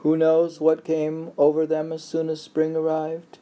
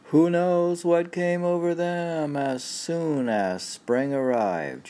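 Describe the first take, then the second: First: High, lifted recital voice; poetry reading. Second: Robot reading. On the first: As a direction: read it like a recited poem. Rereads poem at partner's request. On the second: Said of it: "I'll read it like a robot". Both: Acted.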